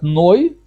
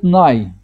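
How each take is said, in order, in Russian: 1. Слог произносится с гласной 'oy'. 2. Слог произносится с гласной 'ai'. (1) "это ашкеназы говорят Ной" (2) "сепарды говорят Най"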